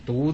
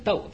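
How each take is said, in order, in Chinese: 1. 这个字读 dú。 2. 这个字读 dòu。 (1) "没有读过书的人呢，这个读字就会读成呢读字" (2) "这个应该读成一个斗字"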